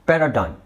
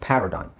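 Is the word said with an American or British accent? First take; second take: American; British. First: The word is said in an American accent. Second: The word is said in a British accent. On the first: "American ಇಂಗ್ಲೀಷಲ್ಲಿ" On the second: "British ಇಂಗ್ಲೀಷಲ್ಲಿ"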